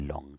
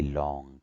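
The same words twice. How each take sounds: First: The vowel is said quickly and kept short. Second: The vowel is stretched and held for longer. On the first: The speaker calls it wrong. "We don't say long" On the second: The speaker calls it right. "We stay on low, long. We say long"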